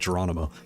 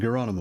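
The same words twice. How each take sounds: First: The name is said with an English pronunciation. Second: The name is said with a foreign pronunciation. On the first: "in English we would just say Geronimo" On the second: "because it has an accent on the O"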